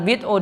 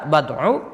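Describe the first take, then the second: First: The first vowel is i. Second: The first vowel is a. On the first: "dengan ba di kasra" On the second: "terkadang dibaca fathah"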